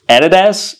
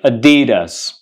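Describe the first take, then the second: First: The stress falls on a syllable other than 'di'. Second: The stress falls on the middle syllable 'di'. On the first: The speaker calls it wrong. "So it's not Adidas" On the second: The speaker calls it right. "You got to put the stress on D, like Adidas"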